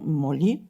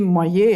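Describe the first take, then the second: First: The double L is said like an L. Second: The double L is said like a Y. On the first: The speaker calls it wrong. "et non molli" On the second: The speaker calls it right. "qu'il faudrait prononcer moyer"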